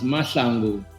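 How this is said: The name is said the South African way.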